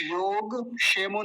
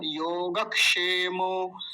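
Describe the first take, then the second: First: योगक्षेमो as yog-shemo, k missing; mistaken pronunciation. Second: योगक्षेमो with a light k before ṣ; correct pronunciation. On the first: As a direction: clip योग and drop the क of क्ष in योगक्षेमो. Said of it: "योगक्षेमो नहीं बोलेंगे". (योगक्षेमो को योग-शेमो की तरह) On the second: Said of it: "क भी आएगा हल्का सा". (योगक्षेमो में हल्का सा क बोलकर) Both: Shown as a demonstration.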